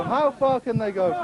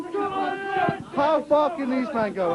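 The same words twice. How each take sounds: First: Said in the usual way. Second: Drawn out, slow commentator line; slow, suspenseful sports-commentator question; slow dramatic question. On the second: Acted. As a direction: stretch it out for suspense.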